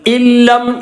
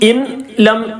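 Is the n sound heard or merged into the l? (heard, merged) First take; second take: merged; heard. First: The n merges fully into a doubled l. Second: The n is pronounced clearly before the l. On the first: The speaker calls it right. "നൂൻ ഉച്ചാരണത്തിൽ വരുന്നില്ല" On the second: The speaker calls it wrong. "എന്ന് പറയാൻ പാടില്ല"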